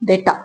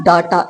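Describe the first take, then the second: First: Data as "DAY-ta"; lower, softer "day" start on data; correct pronunciation. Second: Data as "DAA-taa", long open a; wrong pronunciation. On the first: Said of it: "it's data". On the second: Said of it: "It's not data". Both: Shown as a demonstration.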